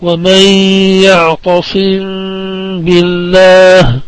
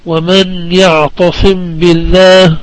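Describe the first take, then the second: First: "ومن يعتصم بالله" recited slowly, the م of يعتصم hummed into the ب; slow, drawn-out Quranic reading of "ومن يعتصم بالله" with lingering nasal hum; ikhfa shafawi recitation. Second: Said in the usual way. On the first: Shown as a demonstration. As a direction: hold the ghunna on the last م of يعتصم before بالله. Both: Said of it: "نقرأها".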